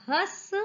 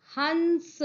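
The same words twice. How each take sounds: First: Said in the usual way. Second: हंस higher, with a held n before स; nasal anusvara. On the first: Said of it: "जिन पर नहीं लगा है". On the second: Shown as a demonstration. Teacher adds the anusvara to the word, हंस with held nasal. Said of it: "ह पर अनुस्वार लगा दिया".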